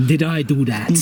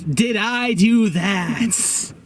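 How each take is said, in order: First: Did I do that in a lower, hammed-up Russian accent; mock-Russian Did I do that, low and heavy. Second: Slow nerdy Urkel-style drawl; Urkel catchphrase. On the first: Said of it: "can you say that with a Russian accent". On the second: Retold or imitated. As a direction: do the sitcom nerd line slowly. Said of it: "he becomes Stefan Urkel".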